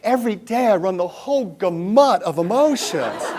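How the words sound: The sentence is said theatrically, with heavy dramatic flair. The speaker calls it wrong. "with full drama"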